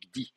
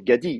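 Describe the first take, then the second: First: The g and d are said with no vowel between. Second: A full vowel is said between the g and d. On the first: This is the form actually used. "on dit gdi" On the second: This is the form expected by the rules. "Normalement, c'est gadi"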